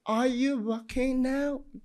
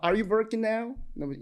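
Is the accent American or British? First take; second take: British; American. First: It is said in a British accent. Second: It is said in an American accent. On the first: "И уже по-британски" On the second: "я могу сказать на американском"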